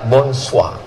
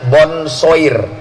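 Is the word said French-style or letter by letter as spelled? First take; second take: French-style; as spelled. First: It is said with French sounds. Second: It is sounded out the way it is written. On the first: "cara bacanya"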